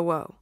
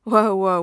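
First: Settling whoa. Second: Loud whoa to cut him off; loud interruption. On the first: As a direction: bring it down gently. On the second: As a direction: stop him mid-babble, much louder. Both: A narrator's reading. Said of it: "Tony interrupted his babble".

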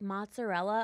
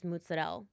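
First: Mozzarella with every vowel, plain American; American-style Mozzarella, rising at the end; anglicized pronunciation. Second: Mozzarella said as "mootsadell"; low, corrective mozzarella, final A dropped; Italian-American pronunciation. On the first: Retold or imitated. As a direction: say Mozzarella the American way, final A sounded. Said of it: "When people are like". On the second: Shown as a demonstration. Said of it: "I'm like, "It's mozzarella".

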